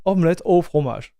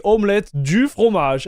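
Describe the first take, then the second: First: Said in the usual way. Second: "du" stressed and raised inside the phrase. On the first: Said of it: "It's omelette au fromage". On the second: Shown as a demonstration. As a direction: punch "du" as the mistaken word. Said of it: "they made a mistake by saying".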